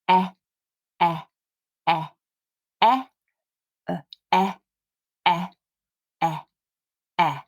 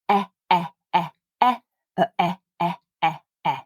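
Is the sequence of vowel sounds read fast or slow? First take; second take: slow; fast. First: The vowel sounds are read slowly. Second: The vowel sounds are read quickly. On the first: "once through quite slowly" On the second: "And a bit more quickly"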